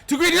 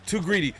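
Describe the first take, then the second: First: "Too greedy!" yelled high and loud; shouted repeat. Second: "Too greedy." said first, moderately loud; first take of "Too greedy." before the shout; said then shouted. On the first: Gamer yelling "Too greedy!" at the lost round. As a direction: scream "Too greedy!" at the screen. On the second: Gamer first saying "Too greedy" before yelling it. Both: Real, not acted.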